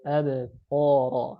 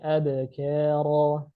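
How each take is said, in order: First: The k sound is heavy and deep. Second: The k sound is light and thin. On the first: The speaker calls it wrong. "Malah bacanya gimana? Abqara" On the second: The speaker calls it right. "Harusnya abkara"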